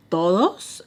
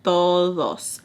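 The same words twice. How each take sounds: First: "Todos" rising sharply into a question. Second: "Todos" falling firmly as a statement; answering. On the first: Woman checking who was there, "Todos" as a rising question. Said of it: "And she's like". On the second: Confirming to her who was there, "Todos" as a falling answer. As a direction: drop "Todos" at the end, no question. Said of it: "And I'm like". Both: Retold or imitated.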